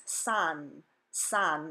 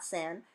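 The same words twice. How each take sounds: First: "san" as sahn; Spanish A. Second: "san" as in English sand; flat English vowel in "san", rhyming with can; English short A. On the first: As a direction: open ah vowel in "san". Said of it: "The letter A says A in Spanish". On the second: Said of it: "not san". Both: Shown as a demonstration.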